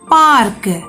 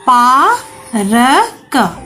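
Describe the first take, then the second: First: The sounds are joined with a very brief r. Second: The sounds are said separately with breaks between. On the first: "यहाँ र का उच्चारण बहुत ही कम समय के लिए हुआ" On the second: "तो यह है पा र क"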